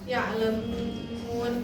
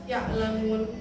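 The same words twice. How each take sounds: First: The vowel before the final n is drawn out. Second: The vowel before the final n is short. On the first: The speaker calls it right. "seharusnya ya'lamun" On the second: The speaker calls it wrong. "tidak dipanjangkan, jadi hanya ya'lamun"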